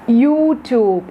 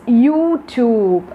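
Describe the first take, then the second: Both takes have the same delivery.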